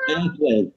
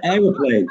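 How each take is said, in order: First: Airplane in two beats, AIR-plane; American airplane. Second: Aeroplane in three beats, AIR-o-plane; British aeroplane. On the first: British man quoting the American word, two-beat airplane. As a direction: say "airplane" with no middle syllable. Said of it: "You said airplane". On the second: British man showing his own word, three-beat aeroplane. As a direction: say "aeroplane" with the extra middle syllable. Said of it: "It's like we said aeroplane". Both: Shown as a demonstration.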